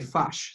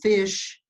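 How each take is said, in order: First: The vowel is shifted, New Zealand style. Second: The word has an Australian vowel.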